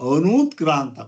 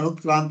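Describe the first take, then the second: First: The second vowel is said long. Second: The second vowel is said short. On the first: The speaker calls it right. "ದೀರ್ಘ ಹೇಳಿದೆ" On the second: The speaker calls it wrong. "ಅನುತ್ಕ್ರಾಂತ ಅಲ್ಲ"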